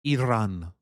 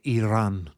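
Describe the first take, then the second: Both takes have the same delivery.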